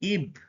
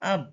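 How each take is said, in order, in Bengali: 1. দলটি 'ee' স্বরধ্বনি দিয়ে শুরু হয়। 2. দলটি 'ah' স্বরধ্বনি দিয়ে শুরু হয়। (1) "ই উচ্চারণ ধরলে ই বি ইব" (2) "আ উচ্চারণ ধরলে ই বি আব"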